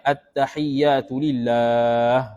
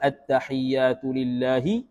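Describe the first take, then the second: First: The last word ends without a final vowel. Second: The last word ends with a final 'i' vowel. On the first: The reciter stops after this word. "Kalau mati makna tak ada lah baris belakang tu" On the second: The reciter continues without stopping. "kalau wasal"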